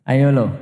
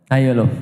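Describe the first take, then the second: No difference in how they are said.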